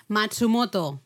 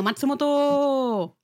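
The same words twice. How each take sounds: First: Said in the usual way. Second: 'Matsumoto' drawn out slow and higher, like a platform call; station announcer voice. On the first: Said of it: "No, Matsumoto". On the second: Retold or imitated. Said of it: "vamos a hablar de Matsumoto".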